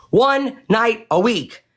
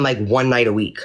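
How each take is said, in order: First: "One night a week" slow, much higher, each word hit hard; emphatic repeat. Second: Said in the usual way. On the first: Shown as a demonstration. To viewers, insisting the kids only stayed once weekly, slow and emphatic. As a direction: spell it out slowly to drive it home. Repeats to stress short stay.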